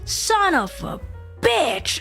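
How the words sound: It pauses, then hits 'bitch' with heavy emphasis. "the pause and the emphasis on bitch"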